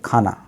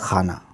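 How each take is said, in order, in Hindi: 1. यह एक महाप्राण स्पर्श ध्वनि kh से शुरू होता है। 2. यह एक गले की संघर्षी ध्वनि kh से शुरू होता है। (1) "हिंदी का एक शब्द है खाना, खाना मतलब भोजन, इसमें नुक्ता नहीं है" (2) "अगर आपने गलती से ख के नीचे नुक्ता लगा दिया तो बन जाएगा खाना"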